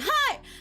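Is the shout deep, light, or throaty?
light. A well-placed shout without throat strain.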